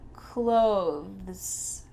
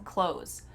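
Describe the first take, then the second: First: The word has a th sound before the s. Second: The word has no th sound before the s. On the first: "With a little T H in there" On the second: "we just say these two words the same"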